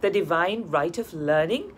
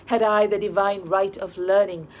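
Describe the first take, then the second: First: Rising, doubtful repeat of divine right of learning; The divine right of learning, echoed with a questioning rise; skeptical echo. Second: Said in the usual way. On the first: A narrator's reading. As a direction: toss the phrase back as a wry question. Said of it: "echoed Mister Spring Fragrance".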